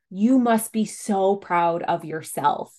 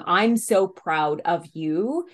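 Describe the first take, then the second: First: Put-on slow, with the weight on "You", praise centred on the child; slow "You must be so proud of yourself" with the stress on You. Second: Slow, with the weight on "I'm", praise centred on the parent; slow "I'm so proud of you" with the stress on I'm. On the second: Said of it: "Instead of saying". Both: Shown as a demonstration.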